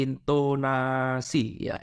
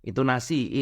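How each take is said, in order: First: "intonasi" stretched very slowly with a falling end; drawn-out intonasi. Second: Said in the usual way. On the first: Shown as a demonstration. Teacher stretching "intonasi" slowly to show intonation. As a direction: draw out "intonasi" long and slow. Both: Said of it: "intonasi penting ini ya".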